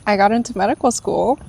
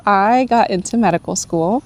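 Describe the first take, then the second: First: Teary, choked up. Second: Laughing with joy. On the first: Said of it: "I don't know why I'm crying". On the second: Laughing while revealing acceptance. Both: Real, not acted.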